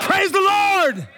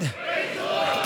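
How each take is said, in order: First: High, slow shout of praise the Lord; full-voiced praise shout. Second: Soft, slow whisper of praise the Lord; hushed whisper before the shout. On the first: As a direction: let it ring out loud. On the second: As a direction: breathe it out as a hush. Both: Shown as a demonstration. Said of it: "praised God with a loud voice".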